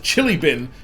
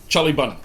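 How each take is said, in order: First: It is said in the speaker's plain accent. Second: It is said in a New Zealand accent.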